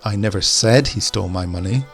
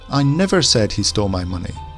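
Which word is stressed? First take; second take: said; never. First: The stress falls on the word said. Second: The stress falls on the word never. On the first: It may have been thought but not said. "we'll put the emphasis on said" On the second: It denies ever having said it. "Now let's put the emphasis on the never"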